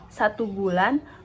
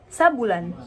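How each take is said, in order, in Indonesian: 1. Kedua suku kata di 'satu' diucapkan penuh. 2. 'Satu' menjadi 'sa' yang menyatu dengan 'bulan'.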